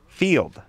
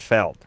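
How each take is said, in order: First: The vowel is long, like in 'field'. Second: The vowel is short, like in 'fell'. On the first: This is how the name is really said. The speaker calls it right. "Field, not Feld" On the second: This is the mistaken reading of the name. The speaker calls it wrong. "not Feld"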